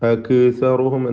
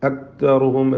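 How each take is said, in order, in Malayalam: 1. ക് ശബ്ദത്തിന് പ്രതിധ്വനിയോടെ കുലുക്കം നൽകുന്നു. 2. ക് ശബ്ദം ഒട്ടും കേൾക്കുന്നില്ല. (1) "ശബ്ദം ചലിപ്പിക്കുകയോ" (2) "കാഫ് അല്പം പോലും ശബ്ദിക്കാതെ കേൾക്കാതെ"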